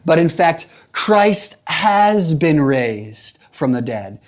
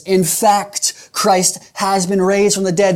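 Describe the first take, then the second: First: "Christ has been raised" drawn out very slowly; slow, weighty proclamation of "Christ"; emphatic quote. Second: "In fact" punched higher, then "raised" hit hard; stress on IN FACT. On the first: Retold or imitated. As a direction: read Paul's words slowly and solemnly. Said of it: "Paul, very emphatically, he says". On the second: Shown as a demonstration. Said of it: "listen to the, the emphasis".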